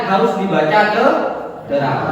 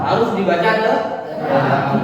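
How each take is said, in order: No difference in how they are said.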